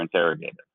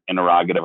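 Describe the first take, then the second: First: In-terra-GATE-ive, joke regional pronunciation; interrogative as interro-GATE-ive. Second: In-ter-ROG-a-tive, the standard way; interrogative, stress on ROG. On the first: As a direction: interrogative with a long "gate" near the end. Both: Shown as a demonstration. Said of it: "what part of the country you're from".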